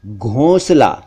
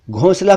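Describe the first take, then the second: First: "घोंसला" with closed nasal o; correct o vowel. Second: Second-take "घोंसला" as "ghaunsla", open au; wrong au vowel. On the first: Shown as a demonstration. Teacher gives correct घोंसला, o sound. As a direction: say "घोंसला" as "ghohn-sla". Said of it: "सही उच्चारण है घोंसला". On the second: Retold or imitated. Teacher imitates common mistake, au sound. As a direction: say "घोंसला" as "ghawn-sla". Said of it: "जो कि ठीक नहीं है".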